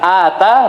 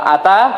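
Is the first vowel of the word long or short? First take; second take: long; short. First: The first vowel is long. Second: The first vowel is short. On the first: It means gave. "Ata memberi" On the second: It means came. "Kalau ata pendek datang"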